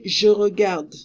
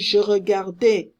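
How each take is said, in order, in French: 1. Le mot finit par la consonne d. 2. Le mot finit par une voyelle 'ay'. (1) "I don't pronounce the E" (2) "No, there's no accent here"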